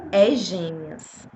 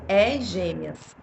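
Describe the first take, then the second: First: Very slow, low, hushed voice from nowhere; mysterious voice. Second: Very slow, low announcing voice; mysterious voice. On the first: Retelling the voice of God announcing twins. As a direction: drawl it out like an unseen voice. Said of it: "ouvi uma voz me falar assim". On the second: Repeating the voice that told her twins. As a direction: stretch each word like an unseen voice. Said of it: "falar assim". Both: Retold or imitated.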